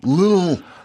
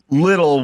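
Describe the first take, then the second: First: It is said as one syllable, 'lil'. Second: It is said as two syllables, 'little'. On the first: The speaker calls it right. "when you should be saying little" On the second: The speaker calls it wrong. "you keep saying little"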